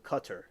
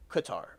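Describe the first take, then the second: First: Qatar said CUT-er; like "cut her". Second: Qatar said kuh-TAR; our pronunciation. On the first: Mocking the invented name, Qatar said CUT-er. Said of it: "It's like, cut her?". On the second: Rejecting "cut her" for chat, Qatar said kuh-TAR. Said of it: "That's what we say". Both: Shown as a demonstration.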